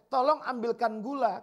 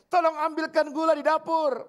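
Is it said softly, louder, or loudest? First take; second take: softly; louder. First: It is said at normal volume. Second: It is said somewhat louder.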